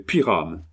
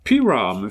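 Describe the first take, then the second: First: Said in the usual way. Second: Put-on dog's name called with an English accent. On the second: Englishman trying the dog's name, English accent. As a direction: call Pyram as an Englishman would. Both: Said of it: "fit l'Anglais".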